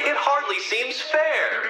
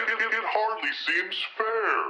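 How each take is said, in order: First: Said in the usual way. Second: Softer, distant echo of the line; soft echoing repeat. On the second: Acted. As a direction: let it fade like an echo.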